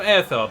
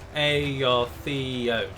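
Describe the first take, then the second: First: The opening vowels merge into one sound. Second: The opening vowels are said as separate sounds. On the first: The speaker calls it wrong. "I used to call them Aethod" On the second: The speaker calls it right. "separate sounds"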